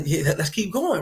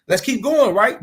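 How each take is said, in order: First: Said in the usual way. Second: Going pushed louder and higher, falling at the end; emphatic louder repeat. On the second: Shown as a demonstration. Urging the fellas on, louder and higher. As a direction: punch it harder the second time, with going high and loud.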